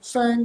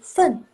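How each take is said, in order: First: The tone stays high and level. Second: The tone falls sharply from high. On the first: It means a score or points. "Fun ada ke satu" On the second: It is a counting word for food portions. "ini fun ada keempat"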